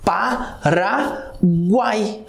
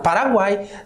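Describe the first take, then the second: First: The word is broken into separate syllables. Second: The word is said smoothly without breaks.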